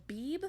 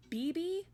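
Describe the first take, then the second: First: "Beeb" as one syllable ending on b. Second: "B B" said as two syllables, bee-bee. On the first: Streamer asks chat how a name is said, "Beeb" as one syllable. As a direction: say "Beeb" with no ee after the last b. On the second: Streamer asks chat how a name is said, "B B" as bee-bee. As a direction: say "B B" with a second ee on the end. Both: Shown as a demonstration. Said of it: "I need to know".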